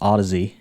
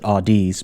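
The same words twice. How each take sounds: First: The name sounds like the word 'Odyssey'. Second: The name does not sound like 'Odyssey'. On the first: The speaker calls it right. "but it's actually pronounced Audeze or Odyssey" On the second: The speaker calls it wrong. "sometimes I like to pronounce it Audeze"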